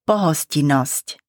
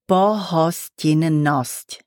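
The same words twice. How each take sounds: First: The word is said quickly with sounds reduced. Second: The word is said slowly with every sound.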